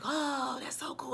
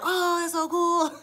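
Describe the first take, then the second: First: Breathy whisper of wonder, barely voiced; hushed little gasp of awe; awed whisper. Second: Put-on high, slow wide-eyed kid's wonder; childlike drawn-out awe. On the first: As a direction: whisper it in amazement. Amazed watching the effect. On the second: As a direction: say it like a kid amazed by fireworks. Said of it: "I was like a kid".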